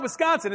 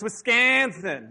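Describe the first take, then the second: First: Said in the usual way. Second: Wisconsin with a long, stretched, exaggerated middle vowel; local pronunciation of Wisconsin. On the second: Shown as a demonstration. Preacher mimicking how locals say it, drawn-out Wisconsin. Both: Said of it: "That's how they say it there".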